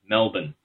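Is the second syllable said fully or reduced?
reduced. The second syllable is reduced, like 'bin'. This is how locals say it. "It's just Melbourne, but M-A-L-B-I-N"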